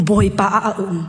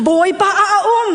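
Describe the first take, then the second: First: Low-pitched, measured statement; low declaration. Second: Higher-pitched, emphatic proclamation; raised declaration. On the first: First saying of repeated declaration. (aw niam tein) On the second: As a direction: lift the voice to proclaim it. Repeats declaration raised after Hallelujah. (aw sang tein) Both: Real, not acted.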